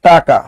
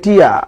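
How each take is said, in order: First: The middle consonant is a clear k sound. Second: No consonant comes between the two vowels. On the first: "আমার দশটা টাকা দরকার" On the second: "আবার অনেকে কয় টিয়া"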